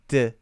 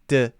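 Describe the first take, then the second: No difference in how they are said.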